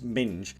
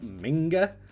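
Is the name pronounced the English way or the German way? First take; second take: English; German. First: The name is said with an English reading. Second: The name is said with a German reading. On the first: The speaker calls it wrong. "in German, ... it's obviously not going to be pronounced Minge" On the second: The speaker calls it right. "It's probably Ralph Minge"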